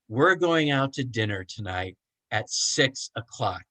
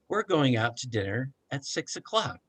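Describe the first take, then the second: First: It is shouted in anger. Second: It is said calmly and patiently.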